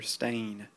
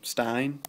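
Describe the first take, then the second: First: The vowel sounds like the word 'stain'. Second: The vowel does not sound like 'stain'. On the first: The speaker calls it right. "His name is Peter Stain, like a stain on your shirt" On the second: The speaker calls it wrong. "People were telling me you pronounce his name Stein. Um, that's not correct"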